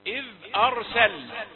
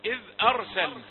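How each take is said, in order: First: إذ أرسلنا read louder with the error slipped in; deliberate wrong reading. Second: إذ أرسلنا said again, a bit louder; repeated reading. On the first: Teacher slipping in an error for students to catch. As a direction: read إذ أرسلنا with the hidden mistake. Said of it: "يمكن أن أقرأه ولا تنتبهون". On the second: Teacher repeating the phrase after the test. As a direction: restate إذ أرسلنا for comparison. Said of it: "ذكرت هذا الخطأ حتى يظهر". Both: Shown as a demonstration.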